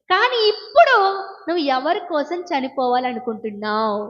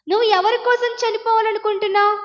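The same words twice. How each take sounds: First: Said in the usual way. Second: Higher, pressing challenge on కోసం; rising challenge. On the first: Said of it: "repeated rhetorical question". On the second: Shown as a demonstration. Preacher confronting the girl, pitch raised on కోసం. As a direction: press the listener hard on కోసం. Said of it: "repeated, raised in challenge".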